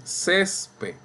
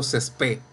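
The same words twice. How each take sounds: First: Césped said CÉS-ped, slowly; stress on first syllable. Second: Césped wrongly said ces-PÉD; stress on last syllable. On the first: Teacher showing class the usual form, césped stressed CÉS-ped. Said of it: "Ustedes dicen". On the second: Teacher showing class a wrong form, césped stressed ces-PÉD. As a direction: push the weight onto PED in césped. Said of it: "Yo no digo". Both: Shown as a demonstration.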